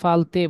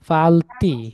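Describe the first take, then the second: First: The word ends with an 'e' vowel. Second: The word ends with an 'i' vowel. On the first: The speaker calls it wrong. "আমাদের এক ভাই ফালতে বলছেন" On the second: The speaker calls it right. "আমরা আরবির মতো করে উচ্চারণ করব।"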